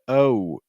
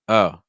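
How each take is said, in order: First: The vowel glides from open to rounded lips. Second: The vowel stays as one steady sound. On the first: The speaker calls it wrong. "So instead of" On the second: The speaker calls it right. "you want just like"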